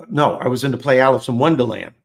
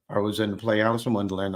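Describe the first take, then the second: First: Louder, quicker self-correction; emphatic correction. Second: Said in the usual way. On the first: Real, not acted. Correcting his own story to the listeners, loud and quick. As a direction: blurt the right title out to fix the mistake. Correcting himself about the play.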